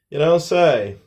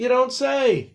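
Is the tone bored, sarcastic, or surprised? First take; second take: bored; surprised. First: It sounds bored and uninterested. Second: It sounds genuinely surprised. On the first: Nobody cares about the news. "responds kind of in a boring way" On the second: The news is new and interesting. "this one is genuine surprise"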